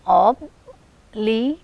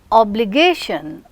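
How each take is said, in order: First: "obligation" slowly split into ob, li, ga, tion; syllable by syllable. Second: Said in the usual way. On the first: Shown as a demonstration. Teacher counting four syllables in obligation, slowly separated. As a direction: pause between each syllable of "obligation". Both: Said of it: "You have four syllables here".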